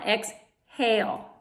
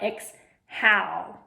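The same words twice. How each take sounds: First: The a in the second syllable is long. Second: The a in the second syllable is short. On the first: The speaker calls it right. "tells the A to say a long A sound" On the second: The speaker calls it wrong. "Not exhale, which is not a word"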